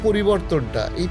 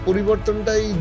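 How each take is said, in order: Both takes have the same delivery.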